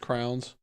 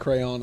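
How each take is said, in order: First: The word sounds like 'crowns'. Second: The word sounds like 'cray-on'. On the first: "it's crowns" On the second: "instead of crayon"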